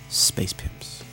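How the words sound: It is said as one joined word. The speaker calls it right. "that's one word"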